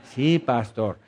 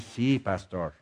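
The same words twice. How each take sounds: First: Said in the usual way. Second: Timid soft "Sí, pastor", both words low and weak; hesitant, barely voiced "Sí, pastor"; meek quiet reply. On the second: Shown as a demonstration. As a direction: mumble "Sí, pastor" like a shy churchgoer. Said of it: "tú dices".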